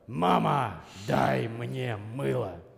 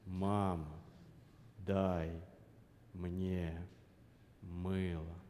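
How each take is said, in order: First: The voice is strained and pushed from the throat. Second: The voice is supported by breath from the belly. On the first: The speaker calls it wrong. "Задача сказать не связками, не джигурдовский стайл" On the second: The speaker calls it right. "задача говорить с животом"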